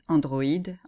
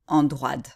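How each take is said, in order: First: The o and i are pronounced as separate vowels. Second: The o and i merge into one 'wa' sound. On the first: "les deux voyelles qui se suivent se prononcent séparément" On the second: "Même chose pour androïde, on devrait dire"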